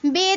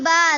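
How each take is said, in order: First: The letter name ends in an e vowel. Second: The letter name ends in an a vowel. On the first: The speaker calls it wrong. "Urdu तलफ़्फ़ुज़ से परहेज़ करें, ... हरगिज़ न पढ़ें" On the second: The speaker calls it right. "अरबी लहजे में अदा करें ... बल्कि ... पढ़ें"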